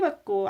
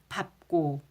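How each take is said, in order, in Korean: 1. 첫 음절은 리을 소리로 끝나요. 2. 첫 음절은 비읍 소리로 끝나요. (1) "이것은 밟고가 아니라" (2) "밟고 밟다 이렇게 되는 거죠"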